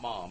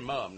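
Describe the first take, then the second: First: The vowel sounds American, like 'mom'. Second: The vowel sounds British, like 'mum'. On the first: This is how we say it. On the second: This is how people over there say it. "they would say"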